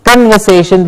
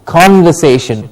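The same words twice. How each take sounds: First: "conversation" starting with a weak "kun"; "conversation" as kun-ver-SAY-shun; wrong pronunciation. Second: "conversation" starting with a clear open "CON"; falling "conversation" as KON-ver-SAY-shun; correct pronunciation. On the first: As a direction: say "conversation" with the first vowel as a schwa. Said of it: "Not conversation, but". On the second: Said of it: "but con, exactly". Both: Shown as a demonstration.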